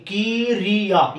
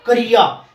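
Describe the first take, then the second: First: किरिया stretched slowly as "kee-ree-ya"; slow, mistaken three-beat किरिया; wrong pronunciation. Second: क्रिया said as "ka-riya", no i after k; firm क्रिया with the i only after r; correct pronunciation. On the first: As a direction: put an i after the k in किरिया. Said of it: "ये क्रिया नहीं होता". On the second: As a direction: keep the first sound of क्रिया short, "kriya". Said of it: "ये होता है क्रिया". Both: Shown as a demonstration.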